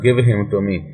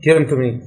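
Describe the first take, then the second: First: The h sound in 'him' is pronounced. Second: The h sound in 'him' is dropped. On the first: The speaker calls it wrong. "It's not" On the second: The speaker calls it right. "यहाँ पे देखिए आपकी जुबान से ही रवां चल रही है"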